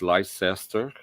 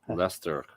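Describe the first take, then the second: First: It is said in three syllables, as spelled. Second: It is said in two syllables, like Lester. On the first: This is how it reads from the spelling. "if you say it" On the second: This is how local people say it. "They they call it"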